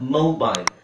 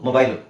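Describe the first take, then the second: First: The first vowel glides from o toward u. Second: The first vowel is a plain, steady o. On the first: The speaker calls it right. "ಅವ್ರು actually ಹೇಳೋದು ಗೊತ್ತಾ" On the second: The speaker calls it wrong. "ಇದನ್ನ ನಾವು ಮೊಬೈಲ್ ಅಂತ ಹೇಳ್ತೀವಿ"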